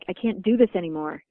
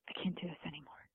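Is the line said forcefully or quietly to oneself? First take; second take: forcefully; quietly. First: It is said with more force and intensity. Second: It is said quietly and frustrated, to oneself.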